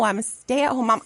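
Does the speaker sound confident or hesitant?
confident. It is said clearly and confidently. The speaker is proud of the role. The speaker calls it right.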